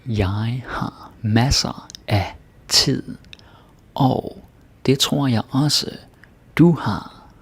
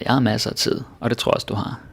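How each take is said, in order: First: It is said slowly and clearly. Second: It is said fast, like real speech.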